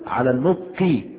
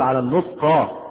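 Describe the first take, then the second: First: The noun ends with an i case vowel. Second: The noun ends with a non-i case vowel. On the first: The speaker calls it right. "على النطق بها" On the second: The speaker calls it wrong. "لم نقل على النطق"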